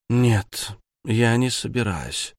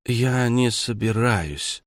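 First: Said in the usual way. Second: Talking with a mouthful; words round a bite of pizza; mouth full. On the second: Acted. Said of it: "сказала она с набитым ртом".

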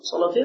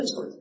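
First: صلاتين؟ with a short rising question tune; asked as a question. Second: صلاتين. said softly and settled, with a small laugh; confirmed as a statement. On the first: Teacher checking with the student, صلاتين؟ rising as a question. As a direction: ask صلاتين؟ with the pitch going up at the end. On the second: Teacher answering his own question, صلاتين. quietly settled with a laugh. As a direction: confirm صلاتين. with a soft falling close. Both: Shown as a demonstration.

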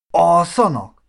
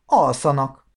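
First: Louder, higher baffled echo; incredulous. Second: Said in the usual way. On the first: Acted. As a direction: question ALSZANAK in loud disbelief. Marci echoes the answer, baffled. (hitetlenkedő visszakérdezés)

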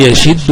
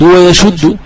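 First: يشد with an i after the ش, "yashiddu"; the "yashiddu" vowelling of يشد; kasra variant. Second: ويشد with a u after the ش, "wa-yashuddu"; the "wa-yashuddu" vowelling of ويشد; damma variant. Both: Shown as a demonstration. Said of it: "وعي ذا وجهين".

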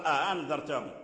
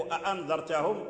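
First: "أأنذرتهم" with the second hamza eased into a glide, "a-handhartahum"; second hamza softened. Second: "أأنذرتهم" with two clear glottal stops, "a'andhartahum"; both hamzas pronounced. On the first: Teacher showing Nafi's reading of "أأنذرتهم", second hamza softened. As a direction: blur the second glottal stop of "أأنذرتهم". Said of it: "يقرأ". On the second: Teacher citing the word "أأنذرتهم", both hamzas full. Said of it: "فنافع يسهل الهمزة". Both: Shown as a demonstration.

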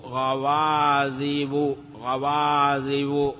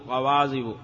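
First: Very slow "غوازب" with held vowels; slow, deliberate modelling of the word; drawn-out citation. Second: Said in the usual way. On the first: Shown as a demonstration. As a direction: stretch "غوازب" out syllable by syllable. Repeats the form slowly, then normally.

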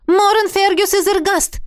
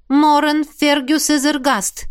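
First: Loud, high summons of the full name; mock-commanding call, louder. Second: Slow, even-toned reciting of the name; bored call while peering into the artefact; monotone call. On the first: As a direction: call him as if across a hall. Calling the dead man's name. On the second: Acted. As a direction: drone the name as a chore. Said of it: "монотонно позвала она".

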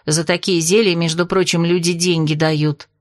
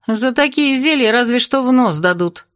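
First: Said in the usual way. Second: Higher, scornful comeback; interrupting retort. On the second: A narrator's reading. Narrator mocks Vaska's potion boast, cutting in. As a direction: throw her words back, pitch lifted. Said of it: "перебила я".

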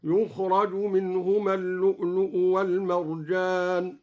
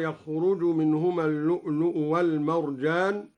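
First: يخرج said yukhraj, with u on the ي and a on the ر; recited as yukhraj. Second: Said in the usual way. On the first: Shown as a demonstration. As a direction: open with yukh- and give the ر a fatha in يخرج. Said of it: "قرأ الدوري بضم الياء وفتح الراء مبنيا للمجهول". (يخرج بضم الياء وفتح الراء) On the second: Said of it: "قرأ الدوري بضم الياء وفتح الراء".

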